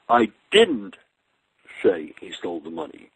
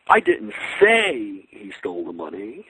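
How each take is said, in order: First: The word 'I' carries the main stress. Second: The word 'say' carries the main stress. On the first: Someone else said it. "maybe someone else said it" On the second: It was only implied, not said. "I just sort of implied it"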